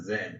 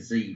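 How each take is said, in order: First: The letter is said the British way, 'zed'. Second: The letter is said the American way, 'zee'.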